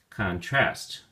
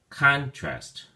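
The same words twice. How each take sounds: First: The stress is on the second syllable. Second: The stress is on the first syllable.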